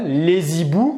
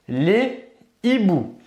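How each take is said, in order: First: A z sound links les to hiboux. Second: No z sound links les to hiboux. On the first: The speaker calls it wrong. "on ne va pas le prononcer ainsi" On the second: The speaker calls it right. "on va dire les hiboux"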